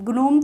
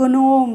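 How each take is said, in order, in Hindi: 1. शब्द की शुरुआत कड़ी g ध्वनि से होती है। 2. शब्द की शुरुआत कड़ी g ध्वनि से होती है।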